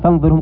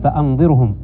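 First: The 'fa' runs straight into the 'n' sound. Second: A glottal stop is pronounced after the 'fa'. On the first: The speaker calls it wrong. "ما قال فأنظرهم" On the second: The speaker calls it right. "قال فأنظرهم، الهمزة هنا همزة قطع"

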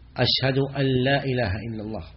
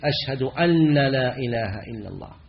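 First: The n of 'an' is short. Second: The n of 'an' is doubled. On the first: The speaker calls it right. "والصواب أنها مخففة" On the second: The speaker calls it wrong. "بعضهم يشدد"

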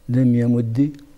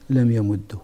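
First: The doubled d ends with a short i. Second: The doubled d ends with a short u.

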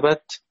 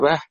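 First: The word ends with a t sound. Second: The word ends with an h sound. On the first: This is how the other readers stop on the word. "والباقون بالتاء" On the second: This is how some readers stop on the word. "يقفون بالهاء"

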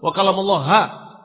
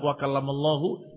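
First: The word ends with the syllable 'ha'. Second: The word ends with the syllable 'hu'. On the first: The sentence says Musa spoke to Allah. The speaker calls it wrong. "cuma nyeletuk wa kallamallaha. Bukan hu" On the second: The sentence says Allah spoke to Musa. The speaker calls it right. "Dibaca wa kallamallahu"

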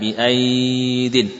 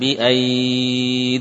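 First: The vowel is short and the word continues. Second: The vowel is lengthened and the word stops. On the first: The reader is continuing without stopping. "Tidak kemudian dipanjangkan" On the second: The reader is stopping at this word. "akan panjang kalau kita waqafkan"

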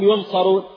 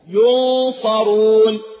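First: The n is pronounced clearly and fully. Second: The n is hidden and nasalized before the s.

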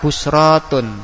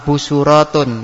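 First: No vowel comes right after the s. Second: A u vowel comes right after the s. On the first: "yang ketiga tetap busratun" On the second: "bacaan pertama yaitu didoma"

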